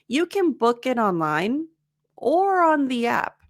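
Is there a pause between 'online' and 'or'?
yes. There is a pause between online and or.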